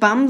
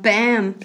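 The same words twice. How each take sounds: First: The word is said with a German vowel. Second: The word is said with an English vowel. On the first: The speaker calls it wrong. "Nicht bam" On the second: The speaker calls it right. "sondern bam"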